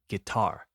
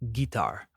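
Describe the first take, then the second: First: The stress is on the second syllable. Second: The stress is on the first syllable. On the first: The speaker calls it right. "with the emphasis on the second syllable" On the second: The speaker calls it wrong. "that's not how we say it"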